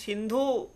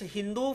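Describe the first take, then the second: First: The word begins with an s sound. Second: The word begins with an h sound. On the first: This is the Sanskrit form used by Indians. "what is Sindhu for Indians" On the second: This is the Persian form of the term.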